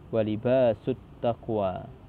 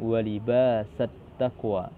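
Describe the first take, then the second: First: The vowel after libas is u. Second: The vowel after libas is a. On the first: This is the other recognised reading of the verse. "Sedangkan yang lain" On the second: This is one recognised reading of the verse. "Imam Nafi' dan Imam Abu Ja'far dan Ibnu Amir dan Kisai membaca dengan"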